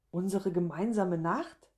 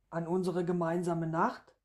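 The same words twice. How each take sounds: First: "gemeinsame" swung up, "Nacht" rising as a question; incredulous echo. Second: Even line with a small lift on "Nacht"; reminding answer. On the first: Woman hearing of a night she forgot, incredulous echo. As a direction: echo it back, not believing a word. Woman echoes him in disbelief. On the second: Man reminding woman of their night, even "gemeinsame Nacht". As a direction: state it evenly up to "Nacht", nudging gently. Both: A narrator's reading.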